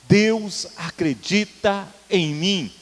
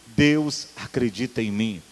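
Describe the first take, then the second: First: It is said loudly and strongly. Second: It is said at normal loudness.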